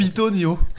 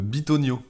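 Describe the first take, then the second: First: The word begins with a voiceless p sound. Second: The word begins with a voiced b sound. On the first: This is the form learned at home, avoiding a rude word. The speaker calls it wrong. "j'ai toujours dit" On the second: This is the actual form of the word. The speaker calls it right. "c'est le mot euh"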